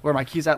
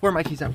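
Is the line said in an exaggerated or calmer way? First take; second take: calmer; exaggerated. First: It is said in a calmer, less worked-up way. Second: It is said in an exaggerated, worked-up way.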